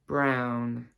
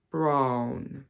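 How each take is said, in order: First: Said in the usual way. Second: 'brown' with an RP vowel; RP accent. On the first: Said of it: "my own accent and the R P". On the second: Shown as a demonstration. Teacher contrasting RP with her own accent, RP accent. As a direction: RP accent, placed on the bottom lip. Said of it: "show you the difference between".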